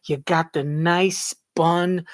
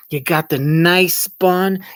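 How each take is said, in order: First: Said in the usual way. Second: Mock savouring. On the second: Mocking a proud cook.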